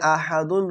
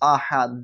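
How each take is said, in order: First: The word ends with a full '-dun' syllable. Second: The word ends on a bare 'd' sound. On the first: This is the written form. "এখানে আহাদুন রয়েছে" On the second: This is the form used when stopping. "কিন্তু আমরা পড়বো আহাদ"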